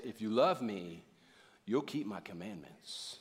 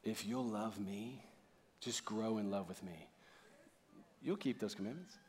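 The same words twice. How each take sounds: First: Slow, low-pitched, measured demand; grave, deliberate imitation of a command; stern condition. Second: Very soft, low, gentle voice; tender invitation. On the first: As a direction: lay down the terms to them. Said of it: "we don't hear the tone of the voice". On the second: Acted. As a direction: speak lovingly, almost under your breath. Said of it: "What if Jesus said it like this?".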